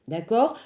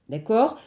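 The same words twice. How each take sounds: Both takes have the same delivery.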